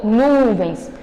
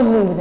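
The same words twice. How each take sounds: First: "nuvens" drawn out with a falling tune; "nuvens" said with spoken intonation, not read flat; marked intonation on nuvens. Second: Said in the usual way. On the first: Shown as a demonstration. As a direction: land on "nuvens" and let the pitch drop as in speech. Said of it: "aqui também tá destacado a entonação com que ele falou". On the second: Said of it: "Então, por exemplo, aqui eu sei que ele não falou nuvens".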